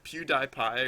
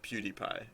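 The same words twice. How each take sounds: First: The middle syllable sounds like 'die'. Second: The middle syllable sounds like 'dee'. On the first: "Is it like Die" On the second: "or D?"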